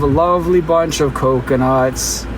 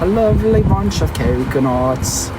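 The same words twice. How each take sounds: First: It is spoken in a Canadian accent. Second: It is spoken in a British accent. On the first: The speaker calls it wrong. "it doesn't sound the same if I sound Canadian" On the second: The speaker calls it right. "That's what the English said"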